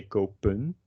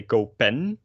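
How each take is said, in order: First: "kopen" with a weak "-pun" ending; "kopen" ending in an unstressed schwa and n; reduced -en ending. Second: "kopen" with a clear "pen" at the end; overemphasized "-PEN" in "kopen"; full -en ending. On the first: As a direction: swallow the vowel in the end of "kopen". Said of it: "we say". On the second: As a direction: sound out the E and N of "kopen", rising. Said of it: "we definitely don't say". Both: Shown as a demonstration.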